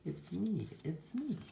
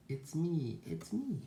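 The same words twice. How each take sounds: First: High sheep voice, rising higher; pitched-up reveal; sheep character. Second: High duck voice, rising higher; pitched-up excited reveal; duck character. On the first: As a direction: announce yourself as the storybook sheep. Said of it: "says the sheep". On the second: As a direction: announce yourself as the storybook duck. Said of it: "says the duck". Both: A narrator's reading.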